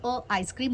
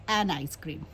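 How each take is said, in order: First: "अ आइसक्रीम" with a bare uh, no n; wrong article shown. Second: "एन आइसक्रीम" low and falling, with the n; correct article shown. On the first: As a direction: say "अ आइसक्रीम" with a vowel gap after the article. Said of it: "अ आइसक्रीम नहीं बोलोगे". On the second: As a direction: give "एन आइसक्रीम" as the answer, linking an n. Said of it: "आप क्या बोलेंगे?". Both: Shown as a demonstration.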